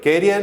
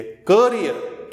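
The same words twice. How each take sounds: First: कैरियर with the wide कै sound, the wrong way; wrong pronunciation. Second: करियर with a short क like कर, not कैरियर; right pronunciation. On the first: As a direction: show the mistake कैरियर. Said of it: "नहीं है". (गलत उच्चारण कैरियर, कै के साथ) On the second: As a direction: say करियर slowly, कर-इ-यर. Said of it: "कैरियर नहीं है". (करियर को कर-इ-यर बोलिए, कैरियर नहीं) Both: Shown as a demonstration.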